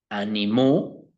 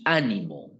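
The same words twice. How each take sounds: First: Animó stressed on the last syllable, rising; a-ni-MÓ, accent landing on the end; stress on final O. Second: Ánimo stressed on the first syllable, falling; Á-ni-mo, first syllable leads, ending drops. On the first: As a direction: say animó slowly, leaning on the final ó. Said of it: "con tilde en la O". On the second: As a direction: say ánimo with the accent on the opening á. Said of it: "con tilde en la A". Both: Shown as a demonstration.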